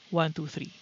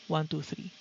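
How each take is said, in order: First: The fan noise is mostly cut by the gate. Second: The fan noise is left in by the gate. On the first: "fifty percent noise gate" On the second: "zero percent noise gate"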